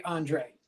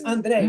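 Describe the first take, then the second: First: Andre the gringo way, AHN-dray. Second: Andre with a Spanish tapped r, end stressed. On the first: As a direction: say Andre with an English r and AY ending. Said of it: "the gringos say Andre". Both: Shown as a demonstration.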